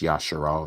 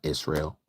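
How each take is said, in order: First: The name is said with three syllables, ya-sha-ral. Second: The name is said with two syllables, iz-rel. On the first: The speaker calls it right. "the true pronunciation is Yasharal" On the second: The speaker calls it wrong. "not Israel"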